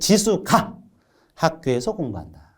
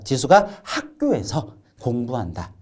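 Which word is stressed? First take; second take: 지수가; 학교에서. First: The stress falls on the word 지수가. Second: The stress falls on the word 학교에서. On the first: It is Jisu, not someone else, who studies there. "지수에 강세를 주어서 지수를 강조하고" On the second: The studying happens at school, not elsewhere. "학교에서를 강조해서 학교를 강조하고 있다"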